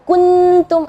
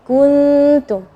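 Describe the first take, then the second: First: The n sound is pronounced clearly and fully. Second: The n sound is hidden in a light nasal hum. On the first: The speaker calls it wrong. "jangan kuntum atau kuntum, ah, itu jadi idhar" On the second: The speaker calls it right. "hukum ikhfa"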